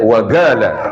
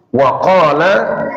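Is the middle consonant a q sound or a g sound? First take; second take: g; q. First: The middle consonant is a hard g sound. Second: The middle consonant is a deep q sound.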